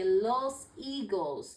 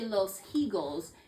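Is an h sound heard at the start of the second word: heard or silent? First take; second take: silent; heard. First: The h at the start is silent. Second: The h at the start is sounded. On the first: The speaker calls it right. "you say los eagles" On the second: The speaker calls it wrong. "You don't say los eagles"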